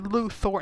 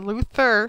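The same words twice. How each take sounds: First: The last syllable sounds like 'thor'. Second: The last syllable sounds like 'ther'. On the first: The speaker calls it right. "You're Luthor, It's spelled Thor" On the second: The speaker calls it wrong. "not Luthor"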